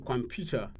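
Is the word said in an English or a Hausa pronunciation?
English. It is said with an English pronunciation. "For example"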